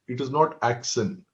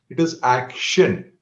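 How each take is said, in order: First: The middle consonant is a plain 's' sound. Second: The middle consonant is a 'sh' sound. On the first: The speaker calls it wrong. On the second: The speaker calls it right.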